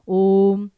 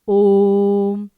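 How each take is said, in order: First: The o vowel is drawn out somewhat. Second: The o vowel is drawn out even longer. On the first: "अब अगर केवल एक S की मात्रा होगी" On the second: "और लंबा"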